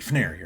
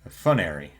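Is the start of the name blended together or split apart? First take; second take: Blended; Split. First: The opening sounds are blended into one quick cluster. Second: The opening is split into two separate syllables. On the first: The speaker calls it right. "you pronounce it Fnary" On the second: The speaker calls it wrong. "pronounces it as like two separate syllables almost"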